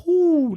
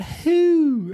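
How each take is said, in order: First: "Whoo" high and loud, falling hoot; owl hoot. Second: "who" said high as a plain word, no hoot; wrong owl sound. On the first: Correcting the wife, a high falling hoot "Whoo". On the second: Showing the wife's wrong owl sound, "who" as a word. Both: Shown as a demonstration.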